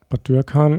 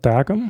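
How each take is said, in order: First: It is pronounced in standard German form. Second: It is pronounced in a contracted Palatinate form.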